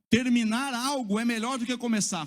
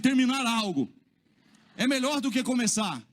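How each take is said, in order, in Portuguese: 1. Ela é dita com voz simples, comum, de fala do dia a dia. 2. Ela é dita com voz forte, de proclamação e autoridade.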